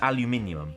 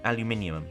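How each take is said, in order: The two takes are said the same way.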